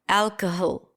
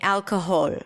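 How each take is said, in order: First: The last vowel is reduced to a schwa. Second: The last vowel is a full vowel. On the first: The speaker calls it wrong. "What happens if I reduce it?" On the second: The speaker calls it right. "let's say I'm saying"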